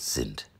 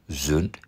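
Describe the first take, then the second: First: The vowel is said with spread, unrounded lips. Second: The vowel is said with rounded lips. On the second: "Ein kurzes I wird ab und zu zu einem Ü. Gerundet"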